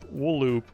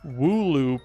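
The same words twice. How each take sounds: First: The word splits as 'wool' plus 'oop'. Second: The word splits as 'woo' plus 'loop'. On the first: "like wool wool wool" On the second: "they capitalize the L, which makes you think it's pronounced Wooloop"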